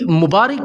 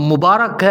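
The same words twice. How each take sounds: First: The vowel after 'r' is an 'i' sound. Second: The vowel after 'r' is an 'a' sound. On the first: The speaker calls it wrong. "रा के नीचे ज़ेर के साथ" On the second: The speaker calls it right. "रा पर ज़बर के साथ"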